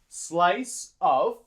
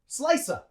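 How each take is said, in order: First: Of is said fully as a separate word. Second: Of becomes a weak schwa joined to slice. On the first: The speaker calls it wrong. "We don't say of. That's too long" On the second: The speaker calls it right. "We use schwa. And we link it onto slice"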